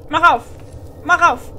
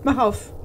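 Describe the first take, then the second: First: "Mach auf" louder and higher, pressing hard; impatient demand. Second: Said in the usual way. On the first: Real, not acted. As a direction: bark "Mach auf" at the stuck door.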